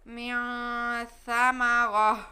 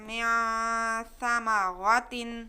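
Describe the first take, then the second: First: The word ends with a stopped 'h' sound. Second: The word ends with a 'tin' sound. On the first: The reciter stops on this word. "अब हम वक्फ करेंगे, ... ता की जगह पे हम हा पढ़ेंगे" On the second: The reciter continues without stopping. "जैसे हम बगैर वक्फ के पढ़ते हैं"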